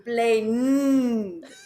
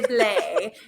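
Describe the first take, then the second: First: The word ends with a strongly stressed n sound. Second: The word ends without the final n sound. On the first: "with emphasis on the n" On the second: "you don't say the na, you just say Blay"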